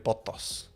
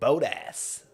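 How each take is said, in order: First: The name is said with a non-American pronunciation. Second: The name is said with an American pronunciation. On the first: The speaker calls it right. "it's actually Valtteri Bottas. That's the actual. That's that's the correct" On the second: The speaker calls it wrong. "Americans say Botas"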